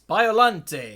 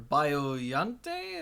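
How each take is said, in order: First: The middle sounds like a plain English L. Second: The middle is said with a Spanish-style Y sound. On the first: The speaker calls it right. "It's got to be Biolante, right?" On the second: The speaker calls it wrong. "pronounced with a Spanish accent"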